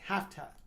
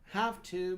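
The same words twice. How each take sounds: First: The two words blend into a reduced form. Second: Both words are said fully and separately.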